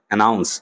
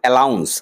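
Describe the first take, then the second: First: The word is said with an N sound. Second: The word is said with an L sound. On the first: The speaker calls it right. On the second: The speaker calls it wrong.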